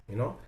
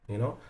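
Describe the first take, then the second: The two takes are said the same way.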